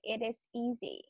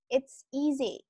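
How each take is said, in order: First: The two words 'it is' are said separately. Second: 'It is' is shortened into one syllable. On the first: The speaker calls it wrong. "You don't say it is easy" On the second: The speaker calls it right. "you should say it's easy"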